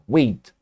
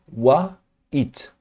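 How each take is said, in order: First: "wait" said as one single syllable, /wet/. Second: "Wa, it" broken into two separate beats, Portuguese style; split into two syllables. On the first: Teacher showing students the right one-syllable way. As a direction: glide "wait" out in one beat. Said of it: "palavrinha de uma sílaba só". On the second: Teacher showing students the wrong two-syllable way. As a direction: say "Wa, it" as two clear syllables with a break. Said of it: "na regra em português teria o A e o it". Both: Shown as a demonstration.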